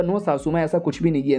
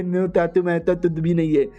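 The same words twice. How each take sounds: First: Said in the usual way. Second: Put-on baby-talk parroting of an excuse; sneering imitation in mushy consonants; mocking mimicry. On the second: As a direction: parrot it back with garbled, lisped sounds. Mother-in-law mimics his denial.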